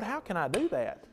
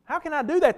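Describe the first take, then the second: First: Soft, wondering plea to the Lord; quiet plea. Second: Higher, anguished repeat of the plea; pleading cry. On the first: Preacher voicing Phil praying to the Lord, hushed. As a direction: ask it softly, almost to yourself. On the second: Preacher voicing Phil crying out to the Lord, higher. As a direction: lift it up, crying out to God. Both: Retold or imitated. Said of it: "and I'm saying, 'Lord".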